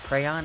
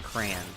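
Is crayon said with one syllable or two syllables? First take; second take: two syllables; one syllable. First: It is said as two syllables, cray-on. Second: It is said as one merged syllable. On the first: The speaker calls it right. "it's pronounced crayon" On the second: The speaker calls it wrong. "and not crayon"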